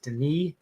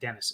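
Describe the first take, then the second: First: It sounds unlike the English name Dennis. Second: It sounds like the English name Dennis. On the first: The speaker calls it right. "He pronounces it Denis Villeneuve" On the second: The speaker calls it wrong. "it looks like Dennis. It's not"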